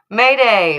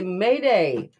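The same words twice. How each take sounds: First: It is said loudly, with more volume. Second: It is said at a quiet, normal volume.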